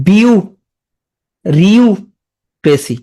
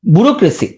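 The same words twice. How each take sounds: First: "বিউ", "রিউ", "ক্রেসি" with long pauses; slow, separated chunks of "বিউ- রিউক্রেসি"; syllable-by-syllable breakdown. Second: Said in the usual way. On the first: Shown as a demonstration. Teacher showing how it breaks up, slow separate syllables. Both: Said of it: "তাহলে এটা পরে কি হবে".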